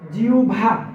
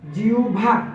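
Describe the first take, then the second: No difference in how they are said.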